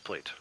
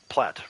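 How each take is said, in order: First: The vowel is long, as in 'late'. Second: The vowel is short, as in 'cat'. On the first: This is the American way of saying it. "we say plate here in America" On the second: This is the British way of saying it. "plat is how it's said in England"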